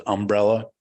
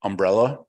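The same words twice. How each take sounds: First: "umbrella" with the stress on "um"; front-stressed Southern "umbrella". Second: Said in the usual way. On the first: Retold or imitated. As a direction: hit the first syllable of "umbrella": UM-brella. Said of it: "Emphasis on the um". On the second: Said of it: "She says umbrella".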